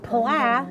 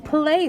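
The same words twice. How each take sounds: First: "pla" with a short flat A as in cat; slow "pla", ending on the A of "apple"; short-a misreading of play. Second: "play" with a long A, rhyming with day; teacherly "play", long A drawn out; correct long-A play. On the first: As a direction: sound it out wrongly as "pla", short A, drawn out. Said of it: "No, it's not pla". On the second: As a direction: say "play" clearly, ending in a long AY. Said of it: "it's the word play". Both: Shown as a demonstration.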